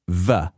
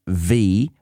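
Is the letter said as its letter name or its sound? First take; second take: sound; name. First: It is said as the short sound, vuh. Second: It is said as the letter name, vee. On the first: "reading it as if they were all lowercase sounds" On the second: "Not V"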